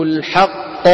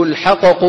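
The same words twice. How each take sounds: First: الحق said slowly with a single held qaf, no bounce; correct merged qaf. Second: الحقق said with the double qaf split into two bounced qafs; broken assimilation. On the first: Teacher models the correct assimilated form. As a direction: hold the qaf of الحق as one. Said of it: "انفك الإدغام". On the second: Teacher shows the merged letter wrongly split. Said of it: "الحقق صار إيه؟ انفك الإدغام". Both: Shown as a demonstration.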